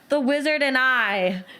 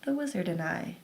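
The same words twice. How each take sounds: First: It is spoken at a loud volume. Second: It is spoken at a soft volume. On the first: "you say it louder" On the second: "let's take it down"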